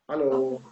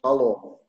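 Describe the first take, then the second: First: The h is a light, soft breath. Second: The h is a harsh, throaty rasp. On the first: The speaker calls it right. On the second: The speaker calls it wrong.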